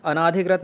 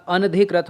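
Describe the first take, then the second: First: अनाधिकृत with a long naa; wrong long vowel. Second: अनधिकृत with no long aa, an-dhi; correct form. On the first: Teacher showing the mistake, अनाधिकृत with long naa. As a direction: lengthen the second vowel in अनाधिकृत. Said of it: "नहीं होता". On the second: Teacher correcting the word, अनधिकृत with short an-dhi. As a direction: run अन straight into धिकृत. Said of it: "होता है". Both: Shown as a demonstration.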